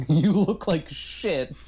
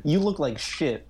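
First: Even slower, deliberate deadpan insult; mock deadpan insult, very slow; slower blunt insult. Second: Slow, deadpan insult; deadpan insult repeated slowly to his face; quoting a blunt insult. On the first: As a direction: drag it out to his face. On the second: Retold or imitated. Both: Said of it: "She says it twice to his face".

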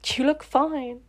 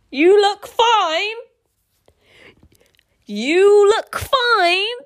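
First: Said in the usual way. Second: Loud, high, drawn-out disbelief; high, loud and slow, questioning every word; incredulous. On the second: Real, not acted. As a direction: stretch each word upward in outraged disbelief. Reader incredulously repeats the line just read.

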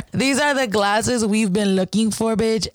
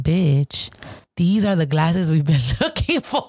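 First: Slow, with "are" leaned on hard; slow emphatic repeat. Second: Breaking into a laugh mid-line; laughing through the quote. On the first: Repeating to J D that these are the glasses, slow and emphatic. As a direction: spell it out slowly, hitting "are". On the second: To friend J D over the found glasses, laughing. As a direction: giggle out the discovery to your friend. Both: Retold or imitated.

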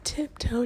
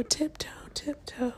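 First: Playful sing-song. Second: Soft playful whisper. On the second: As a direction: whisper it while sneaking. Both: Real, not acted.

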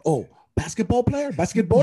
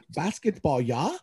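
First: Lightly mocking Finnish accent, much higher, rising on "Basketball?"; a hint of a Finnish accent, "Basketball?" asked on a high rise; mock local's guess. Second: Put-on "Basketball" falling, then a light rising "yeah?" in a faint Finnish accent; lightly voiced Finnish accent, "Basketball" said with a falling tune; milder Finnish accent. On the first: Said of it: "they're like, "Oh," they probably assume". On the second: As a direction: redo the local more subtly, a hint of Finnish accent on "Basketball". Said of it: "Was that sound better?".

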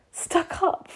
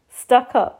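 First: Unvoiced, much higher, stunned whisper of "Stuck up?"; breathless disbelief. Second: "Stuck up?" louder and voiced, half-offended; indignant disbelief. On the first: Friend says she looks stuck up, stunned whispered disbelief. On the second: Friend says she looks stuck up, louder indignant echo. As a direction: throw back "Stuck up?" with full voice.

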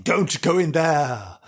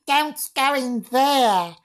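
First: Said in the usual way. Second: Put-on very high, slow ghostly girl; loud, put-on high girl voice; young girl's voice. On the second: Shown as a demonstration. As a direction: wail a warning as a little girl. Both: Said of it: "I can say it in a girl".

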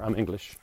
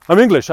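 First: Said in the usual way. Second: I'm English, much higher and louder, hammed up; hammed-up proud Englishman; loud English declaration. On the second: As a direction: proclaim I'm English with mock pride. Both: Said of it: "It's just kinda like".

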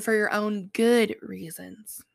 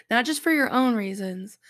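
First: Slow, with "good" drawn out and emphasized; single out the word "good"; deliberate weight on "good"; stress on good. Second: Said in the usual way. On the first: Shown as a demonstration. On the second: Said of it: "but for your own good reasons".

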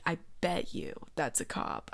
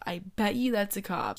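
First: Nervous whisper. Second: Said in the usual way. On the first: Retold or imitated. Nervous mutter, repeated.

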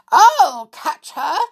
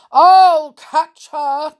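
First: Loud, high, drawn-out cry; Mother Bear's shout. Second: Big, slow, loud bear cry; Father Bear's shout. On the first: Mother Bear chasing Goldilocks, crying out. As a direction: call it out high and urgent. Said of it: "cried Mother Bear". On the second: Father Bear chasing Goldilocks, shouting. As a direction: roar it out, stretching the words. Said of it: "cried Father Bear". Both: A narrator's reading.

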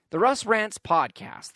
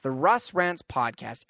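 First: The Russ Rants podcast spelled out slowly, each word weighed; slow grand announcement. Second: The Russ Rants podcast repeated slowly and much lower; low dramatic echo. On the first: Host proudly introducing his Russ Rants podcast, slow and grand. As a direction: present the show's name like a title card. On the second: Host echoing his podcast's name to listeners, low and slow. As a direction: drop into a deep trailer-voice echo of the name. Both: Shown as a demonstration.

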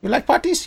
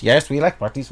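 First: High squeaky kobold question, rising; small creature voice. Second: Small creature voice. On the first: Kobold checks with the others, small creature voice. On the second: Kobold answers the question, small creature voice. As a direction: agree as a little creature, settling it. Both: Acted. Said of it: "trying to do a small creature accent".

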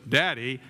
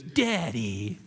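First: Short, falling echo of a tough Western father; lightly voiced gruff cowboy taken aback; John Wayne. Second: Drawn-out mock call with a swooping fall; put-on grown son needling his father; estranged son's taunt. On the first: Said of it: "And John Wayne goes". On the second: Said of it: "And then he goes".

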